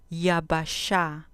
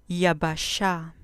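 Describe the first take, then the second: No difference in how they are said.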